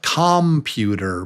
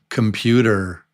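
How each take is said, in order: First: The first vowel is said as a full vowel. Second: The first vowel is reduced to a schwa. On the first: The speaker calls it wrong. "you might say it looks like computer" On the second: The speaker calls it right. "but it's really come, come, computer"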